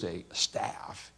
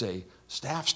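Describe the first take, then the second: First: The word staff is said plainly, without stretching. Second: The word staff is stretched with heavy emphasis. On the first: It is an ordinary staff. "It isn't just a staff" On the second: It is a special, one-of-a-kind staff. "It's a staff. Isn't it funny when we say the words like that"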